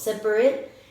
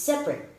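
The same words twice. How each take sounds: First: The word is said with three syllables. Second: The word is said with two syllables. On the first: The speaker calls it wrong. "you were saying three syllables" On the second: The speaker calls it right. "It's separate"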